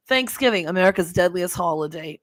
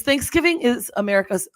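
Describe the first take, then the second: First: Put-on East Coast accent; Jersey accent. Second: Said in the usual way. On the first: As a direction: read it like a Jersey storyteller. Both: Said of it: "okay, I'm gonna do my accent".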